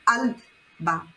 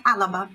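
First: Alba said lower with the l straight into the b; alba without the a. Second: Alaba with a small a between l and b; alaba with extra a. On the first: Teacher removing the helper vowel, clean alba. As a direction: drop the extra vowel, alba. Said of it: "Agora tira aquele A". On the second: Teacher giving an easier step, alaba with extra vowel. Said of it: "então tenta alaba". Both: Shown as a demonstration.

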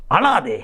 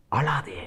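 First: Said in the usual way. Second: Soft, low near-whisper; hushed comfort. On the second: Acted. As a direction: hush a weeping listener tenderly. God's comfort quoted softly.

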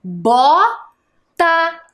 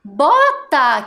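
First: "Bota" split by a long pause, first syllable rising high. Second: "Bota" joined up as one word, falling at the end; whole word. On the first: Teacher building a word from syllables, "Bota" syllable by syllable. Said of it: "E ficou como?". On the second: Teacher naming the winter boot, "Bota" as a whole word. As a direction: say "Bota" whole, without the pause. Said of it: "que a gente utiliza". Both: Shown as a demonstration.

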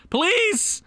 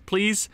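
First: Please, high and pleading; loud plea. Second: Said in the usual way. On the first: Real, not acted. Begging the team, a high loud please. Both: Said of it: "pleading twice, second louder".

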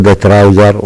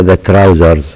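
First: "trouser" ending without a z sound; singular, no final s. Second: "trousers" ending in a clear z sound; plural final s. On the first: Teacher showing what we don't say, no final s. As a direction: say "trouser" with nothing after the r. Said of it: "ما نقول the trouser". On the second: Teacher correcting to the plural, final s sounded. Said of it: "ننطقه كأنه جمع". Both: Shown as a demonstration.

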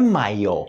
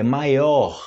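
First: "maior" said as maió; final R dropped. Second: "maior" with a breathy H-like final R; final R sounded. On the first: Teacher corrects the spoken form, dropped-R demonstration. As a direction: finish "maior" on a bare stressed o. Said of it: "muitas vezes, se torna o". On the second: Teacher gives the written form, audible-R demonstration. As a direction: let the R be heard ending "maior". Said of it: "Mas não é maior". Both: Shown as a demonstration.

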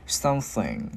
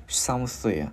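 First: SOMETHING with the final NG rung out; ringing NG. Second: SOMETHING as "some-thi", blown TH, no final NG. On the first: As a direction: let the end of "Something" hum on NG. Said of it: "ngân cái chữ ngờ ra". ("Something": ngân âm NG ở cuối) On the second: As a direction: blow air through the TH of "Something", leave the end open. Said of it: "mình thổi hơi". ("Something": thổi hơi âm TH, chưa có NG) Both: Shown as a demonstration.

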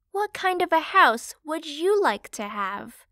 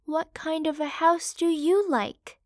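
First: Said in the usual way. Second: Higher, hopeful mother's question; ask, hoping for a good answer. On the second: Acted. Mother pig turning to her youngest son, hopeful. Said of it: "asked hopefully".

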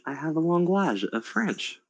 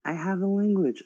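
First: "language" said the French way, lahn-GLAHZH; French pronunciation. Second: Said in the usual way. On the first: Shown as a demonstration. Player claiming a French skill, "language" pronounced as French. Same word said English, then French.

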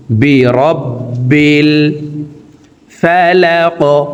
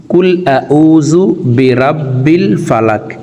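First: "রব্বিল" with a held double b, slow and sung; doubled b. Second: "কুল আউযু বিরাব্বিল ফালাক" with a plain Bangla short a and no doubled ব; wrong way. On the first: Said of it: "বাটি দুইবার উচ্চারণ করে পড়ব". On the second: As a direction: read "বিরাব্বিল" the careless way, plain b. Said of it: "এইভাবে যদি অশুদ্ধ পড়ি". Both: Shown as a demonstration.

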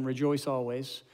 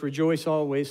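First: Rejoice always drawn out slow and pressed, each word weighed; slow emphatic repeat. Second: Said in the usual way. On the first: Shown as a demonstration. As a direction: say Rejoice always slowly so it sinks in. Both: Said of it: "Some of us should hear that again".

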